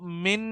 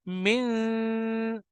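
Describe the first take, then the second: First: The n sound is pronounced fully and clearly. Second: The n sound is hidden in a nasal hum. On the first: The speaker calls it wrong. "हम इसको मिन नहीं पढ़ सकते" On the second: The speaker calls it right. "हम इसमें नून की आवाज को छुपाएंगे"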